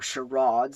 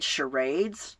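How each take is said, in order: First: The word is said in a posh, upper-class way. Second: The word is said in a plain, ordinary way.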